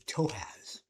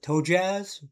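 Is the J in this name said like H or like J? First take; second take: H; J. First: The J is said with an H sound. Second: The J is said with a J sound. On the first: The speaker calls it right. "the J is supposed to be pronounced as an H" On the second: The speaker calls it wrong. "I used to call it Toe Jazz"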